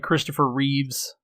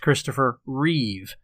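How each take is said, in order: First: The surname ends with an s sound. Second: The surname ends without an s sound. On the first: The speaker calls it wrong. "a lot of people will say Christopher Reeves, and it's not Reeves" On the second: The speaker calls it right. "There is no S right. on the end of that"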